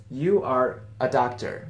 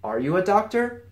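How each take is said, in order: First: "doctor" settles down as a slow, even statement; statement tune. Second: "doctor" lifted in a rising question; question tune. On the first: Teacher giving learners the sentence as a statement, slow statement tune. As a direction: state it slowly, no lift on "doctor". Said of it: "that's a statement by itself". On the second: Teacher showing how the statement becomes a question, rising question tune. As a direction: ask it, voice climbing on "doctor". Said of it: "it becomes a question". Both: Shown as a demonstration.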